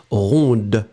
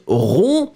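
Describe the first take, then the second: First: "ronde" with the final D sounded; pronounced final D. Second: "rond" ending on the vowel, final D silent. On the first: Teacher showing students the feminine form, "ronde" with sounded D. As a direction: let the D be heard at the end of "ronde". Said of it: "then you will pronounce ronde". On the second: Teacher showing students the masculine form, "rond" with silent D. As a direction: say "rond" with no D sound at the end. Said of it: "masculine final D is not pronounced". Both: Shown as a demonstration.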